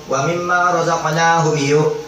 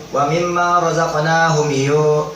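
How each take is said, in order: No difference in how they are said.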